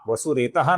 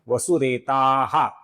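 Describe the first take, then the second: First: The vowel before the final h is short. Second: The vowel before the final h is long. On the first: The speaker calls it wrong. "वसुरेतः नहीं है" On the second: The speaker calls it right. "ये आ के आगे विसर्ग है"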